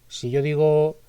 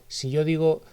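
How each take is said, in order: The two takes are said the same way.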